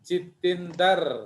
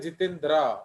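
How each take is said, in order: First: A vowel is inserted between d and r. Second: The ending is a dr cluster, no vowel between. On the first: This is how Punjabi speakers say it. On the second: This is the standard form that Punjabi speakers avoid. "वो क्यों नहीं बोलते जितेंद्र"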